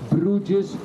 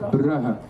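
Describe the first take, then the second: First: The name is said the English way. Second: The name is said the Flemish way. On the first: This is how visitors usually say it. "you hear me say Bruges" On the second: This is how local people say it. "But here we say Brugge"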